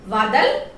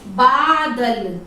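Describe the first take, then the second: First: The wrong form वादल read to the class; wrong pronunciation. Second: बादल said slowly with a firm b at the start; the correct बादल modelled slowly; correct pronunciation. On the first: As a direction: start वादल on a v, as the mistake. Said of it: "वादल गलत है". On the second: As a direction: draw out बादल slowly, b first, for children to copy. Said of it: "क्या होता है?". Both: Shown as a demonstration.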